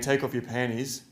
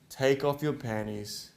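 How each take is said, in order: First: The phrase is spoken quickly and rushed. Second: The phrase is spoken slowly and deliberately. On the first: The speaker calls it wrong. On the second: The speaker calls it right.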